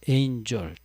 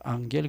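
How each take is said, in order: First: The word begins with an 'ain' sound. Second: The word begins with an 'ang' sound. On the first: The speaker calls it wrong. "앵글로색손족들 발음하는 습관을 따라서 에인절 또 그렇게 읽어요" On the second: The speaker calls it right. "그냥 라틴어식으로 앙겔 그러면 될 거 아니에요?"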